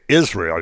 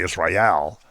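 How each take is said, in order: First: The stress is on the beginning, not on el. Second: The stress is on the final el syllable.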